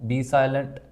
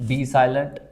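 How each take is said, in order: No difference in how they are said.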